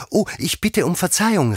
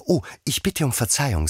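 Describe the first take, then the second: First: High, loud, startled apology; Alice crying out an apology, high and loud; quick exclaimed apology. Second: High apology at normal volume; high, contained apology; Alice apologising. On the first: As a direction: call out sorry at once. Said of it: "rief Alice schnell". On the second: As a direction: say sorry in a high voice, without calling out. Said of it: "sagte Alice wieder". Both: A narrator's reading.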